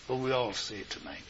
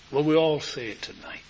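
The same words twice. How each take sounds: First: Softer, faster invitation to the congregation; hushed invitation. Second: Said in the usual way. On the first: Real, not acted. Preacher quietly invites the congregation to say it together. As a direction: ask them gently to join in.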